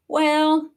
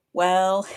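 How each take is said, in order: First: A laughing well, jumping higher. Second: Said in the usual way. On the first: Real, not acted. Vlogger laughing at the conspiracy link. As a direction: chuckle the word out, amused.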